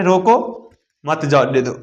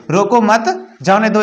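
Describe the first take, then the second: First: "रोको" rising, clear break, then lower "मत जाने दो"; pause after रोको. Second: "रोको मत" joined, then "जाने दो"; pause after मत. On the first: Teacher shows the act of stopping, pause after रोको. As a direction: stop after रोको, join मत to जाने दो and fall. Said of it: "रोकने की क्रिया". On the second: Teacher shows the comma's role, pause after मत. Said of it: "इसमें किसकी महत्वपूर्ण भूमिका है". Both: Shown as a demonstration.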